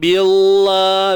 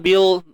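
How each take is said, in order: First: The syllable is lifted with an English-style lilt. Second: The syllable is said plainly without any lilt. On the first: The speaker calls it wrong. "jangan bila, nak terangkat sikit ala-ala London Chocorol tu, tak mau" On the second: The speaker calls it right. "biasa je"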